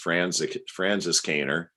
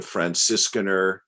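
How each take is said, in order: First: It is said with an American pronunciation. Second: It is said with a German pronunciation.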